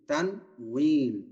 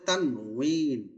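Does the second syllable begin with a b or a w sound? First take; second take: w; w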